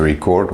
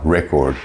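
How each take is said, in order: First: "record" as the verb, ri-CORD; second-syllable stress. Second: "record" as the noun, REC-ord; first-syllable stress. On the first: Teacher showing the verb, "record" stressed on CORD. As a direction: put the weight on the end of "record". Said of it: "what I'm doing right now". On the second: Teacher showing the noun, "record" stressed on REC. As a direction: put the weight on the start of "record". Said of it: "if you run the fastest". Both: Shown as a demonstration.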